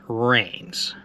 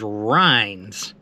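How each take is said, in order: First: The name rhymes with 'trains'. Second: The name rhymes with 'lines'. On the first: The speaker calls it wrong. "not Rains. I mispronounced that" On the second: The speaker calls it right. "The name of the deli is Rhines"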